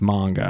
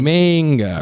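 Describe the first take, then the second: First: The first vowel sounds like 'ah' in 'father'. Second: The first vowel sounds like 'ay' in 'day'. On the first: "But it's like father" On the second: "the first A we would think would say, A"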